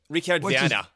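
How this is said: The name is said with a German accent. "Try to say it in German"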